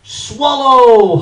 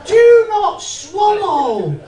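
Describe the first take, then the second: First: Loud. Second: Laughing. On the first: Acted. First reading of label. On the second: Real, not acted. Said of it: "Look at the size of that".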